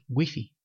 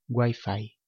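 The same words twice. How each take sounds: First: The word is said with Spanish vowel sounds. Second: The word is said with English vowel sounds. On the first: This is how it is said in Spain. "En España decimos Wi-Fi" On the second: This is how it is said in Mexico. "en México usan la pronunciación inglesa"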